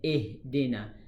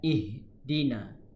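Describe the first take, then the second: First: The vowel leans toward another vowel sound. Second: The vowel is said plain and unbent. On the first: The speaker calls it wrong. "bukannya Ihdina" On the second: The speaker calls it right. "Bacaan yang tepat ialah Ihdina"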